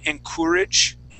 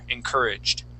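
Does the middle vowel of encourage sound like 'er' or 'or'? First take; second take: or; er. First: The middle vowel sounds like 'or'. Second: The middle vowel sounds like 'er'. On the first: The speaker has very careful diction. "they like to pronounce it more proper" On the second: This is how most people in the United States speak. "we tend to to move more towards that er sound instead of the or"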